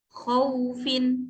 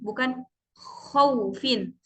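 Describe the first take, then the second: First: The middle sound is soft, with no added pressure. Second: The middle sound has an added push of pressure. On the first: The speaker calls it right. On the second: The speaker calls it wrong.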